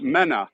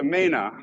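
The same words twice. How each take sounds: First: Mena with a short e, MEN-uh; mistaken pronunciation. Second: Mena with a long first vowel, MAY-nuh; researched pronunciation. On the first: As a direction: say Mena as MEN-uh, the version to reject. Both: Shown as a demonstration. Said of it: "it's not Mena".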